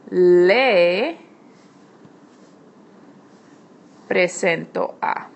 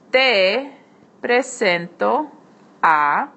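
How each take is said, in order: First: "le" begins with an L in place of the T; formal le. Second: "Te" said with a T, then a slow "presento"; informal te. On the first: Teacher showing students the formal introduction, L sound. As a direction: open on an L, "le presento". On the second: Teacher showing students the informal introduction, T sound. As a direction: start with a clear T in "Te". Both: Shown as a demonstration. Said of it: "Here te becomes le".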